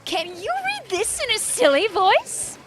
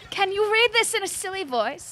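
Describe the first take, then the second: First: It is read in a put-on silly voice. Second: It is read in a plain normal voice.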